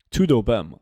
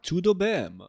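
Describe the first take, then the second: First: Said in the usual way. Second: High, softer put-on Portuguese accent; attempted Portuguese accent. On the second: Shown as a demonstration. Streamer tests the phrase on chat, mock Portuguese accent. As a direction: try it like a Portuguese speaker, pitched up. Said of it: "with, like, a Portuguese accent".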